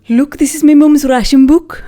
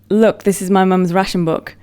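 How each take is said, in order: First: It is said in a strong Leicester accent. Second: It is said without a strong regional accent.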